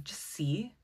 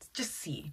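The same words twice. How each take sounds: First: Soft unvoiced whisper. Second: Said in the usual way. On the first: Real, not acted. About to draw oracle cards, whispered aside. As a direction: whisper it like a secret.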